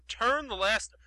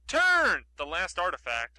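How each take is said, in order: First: Said in the usual way. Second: "Turn" shouted long and loud, as if in capitals; big drawn-out emphasis on "Turn". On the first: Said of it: "I'm saying it loudly". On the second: Shown as a demonstration. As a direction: blast the word "Turn", then ease off. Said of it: "I'm saying it loudly because it's all in caps".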